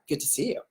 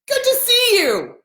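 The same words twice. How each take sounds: First: It sounds snarky and sarcastic. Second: It sounds warm and friendly. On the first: The speaker is not really glad to see you. The speaker calls it wrong. "it sounds horrible, just like how I did it" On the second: The speaker is truly glad to see you. The speaker calls it right. "That's welcoming"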